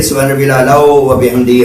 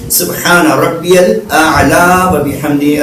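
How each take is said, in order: First: سبحان ربی الاعلی و بحمدی run together at normal pace; quick plain version. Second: سبحان ربی الاعلی و بحمدی slow and raised, الاعلی lifted; slow correct recitation. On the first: Teacher repeats the prayer in a rushed everyday way. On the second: Teacher models the prostration prayer correctly, slowly. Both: Shown as a demonstration. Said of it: "الگ ہے".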